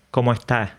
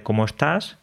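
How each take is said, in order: First: Andalusian "¿cómo estás?" with the final s dropped; Andalusian accent. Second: Said in the usual way. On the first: Shown as a demonstration. Andalusian speaker comparing his accent with Galician. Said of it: "los andaluces decimos". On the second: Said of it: "en lugar de".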